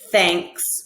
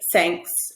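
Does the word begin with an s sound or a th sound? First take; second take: th; s. First: The word begins with a th sound. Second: The word begins with an s sound. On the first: The speaker calls it right. "pronouncing a word like thanks ... with a T H" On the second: The speaker calls it wrong. "change that T H into another sound"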